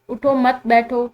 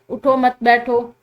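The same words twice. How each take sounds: First: The pause comes after the second word. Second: The same.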